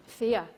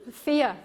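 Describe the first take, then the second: First: Said in the usual way. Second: "Fear." punched, a little higher, falling; emphatic reveal. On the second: Shown as a demonstration. Coach revealing the F word to her audience, "Fear." hit hard. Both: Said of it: "the F word".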